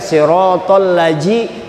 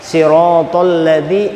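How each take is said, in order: First: The consonant is a 'j' sound as in 'jam'. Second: The consonant is a 'th' sound as in 'this'. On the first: The speaker calls it wrong. "Jangan kena dibaca siratal laji, itu huruf jim" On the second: The speaker calls it right. "zal di ujung gigi, di ujung lidah, ujung lidah kena gigi kiri atas"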